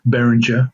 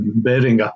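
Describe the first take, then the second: First: The name is said with an English-sounding pronunciation. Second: The name is said with a German-sounding pronunciation. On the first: This is how other people commonly say it. The speaker calls it wrong. "they pronounce pronounce it Behringer, which shits me" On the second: This is closer to the brand's proper pronunciation. The speaker calls it right. "not German, but I'm pretty sure it'll be some, something more like Behringer"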